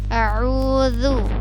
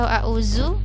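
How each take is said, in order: First: The middle consonant is a soft dh sound. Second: The middle consonant is a z sound. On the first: The speaker calls it right. "Yang benar a'udzu" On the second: The speaker calls it wrong. "atau a'uzu. Salah ya"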